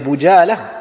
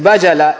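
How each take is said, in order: First: The first vowel is a 'u' sound. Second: The first vowel is an 'a' sound. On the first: The speaker calls it wrong. "Avec une dhamma ?" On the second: The speaker calls it right. "en français ils ont mis avec la fatha"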